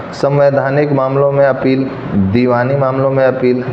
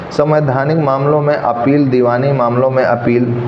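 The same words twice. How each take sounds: No difference in how they are said.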